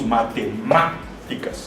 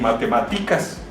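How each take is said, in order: First: The stress is on the third syllable. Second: The stress is not on the third syllable. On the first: The speaker calls it right. "Decimos matemáticas" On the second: The speaker calls it wrong. "No decimos matemáticas"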